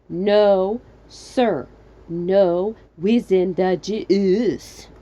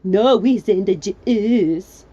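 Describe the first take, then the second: First: It is said with pauses between words. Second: It is said without pauses between words.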